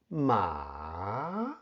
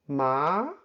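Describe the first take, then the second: First: The pitch dips low and then rises. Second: The pitch starts in the middle and rises. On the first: "first falls and then rises" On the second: "starts from the middle of your voice and rises"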